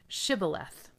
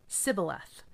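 First: The word begins with an SH sound. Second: The word begins with a plain S sound. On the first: The speaker is from Gilead. The speaker calls it right. "they would tell him to say" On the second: The speaker is from Ephraim. The speaker calls it wrong. "because people from Ephraim cannot pronounce the word correctly"

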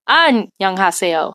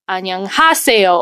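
First: The first syllable is stressed. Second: The third syllable is stressed.

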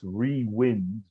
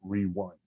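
First: Wind has a short i, like blowing air. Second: Wind has a long i, like winding back. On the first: Wind power is being brought back into use. "it's rewind" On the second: Going back to the old days. "not rewind"

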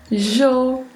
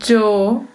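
First: The word begins with a zh sound. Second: The word begins with a dj sound. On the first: "um som de J" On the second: "um som de DJ"

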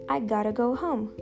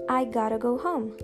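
The two takes are said the same way.

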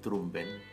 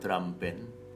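First: The second word is said as 'ben', without a final d. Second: The second word is said as 'band', with a final d. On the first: "D-R-U-M-B-E-N, sebagaimana ditulis oleh penyairnya" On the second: "sengaja saya tidak mengucapkan kata drum band"

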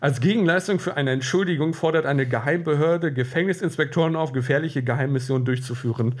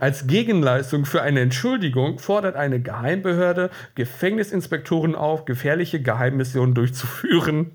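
No difference in how they are said.

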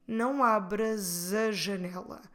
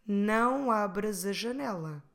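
First: The S runs into a as a Z sound. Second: The S runs into a as a Z sound.

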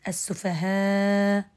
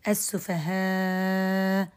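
First: The long vowel is held for four counts. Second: The long vowel is held for six counts.

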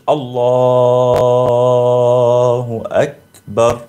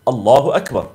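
First: The words are stretched out and drawn long. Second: The words are said quickly without stretching.

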